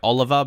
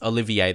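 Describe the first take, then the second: First: The name is said with three syllables. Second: The name is said with four syllables. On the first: The speaker calls it wrong. "Some people say I say his name wrong, like Oliver" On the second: The speaker calls it right. "It's Olivier. That's the way I say it"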